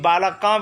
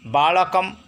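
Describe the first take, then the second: First: The word ends with an open a vowel. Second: The word ends with an m sound. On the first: The speaker calls it wrong. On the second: The speaker calls it right.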